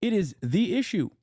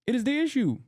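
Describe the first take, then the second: First: Said in the usual way. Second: Rising insistence on issue; insistent repeat. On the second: Real, not acted. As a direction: issue pushed higher, hammered home.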